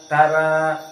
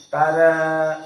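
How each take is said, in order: The two takes are said the same way.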